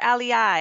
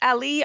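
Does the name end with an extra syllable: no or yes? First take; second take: yes; no. First: The name ends with an extra final syllable. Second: The name ends without an extra final syllable. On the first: "I was saying Ali-I" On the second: "another nursery person said Ali"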